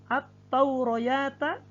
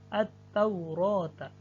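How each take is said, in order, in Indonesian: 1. Bunyi 'y' diucapkan sebelum suku kata terakhir. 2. Tidak ada bunyi 'y' sebelum suku kata terakhir. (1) "ya-nya tidak di, walaupun tertulis tapi tidak dibaca" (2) "yang dibaca hanya alifnya"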